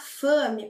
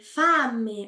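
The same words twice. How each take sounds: First: The A vowel is more closed. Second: The A vowel is very open. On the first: The speaker calls it wrong. "Nada de falar fame" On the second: The speaker calls it right. "A pronúncia da vogal A, bem aberta"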